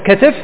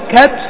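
First: Open first vowel, then i before the last consonant. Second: Open first vowel, no vowel before the last consonant. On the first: "اللي هي الأولى فعل" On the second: "إما أن تفتحه"

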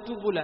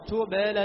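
First: The bounce on the b leans toward u. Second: The bounce on the b sounds neutral. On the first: The speaker calls it wrong. "ما أقول يوم تبلى" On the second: The speaker calls it right. "أرد الشفاء إلى الوضع الطبيعي"

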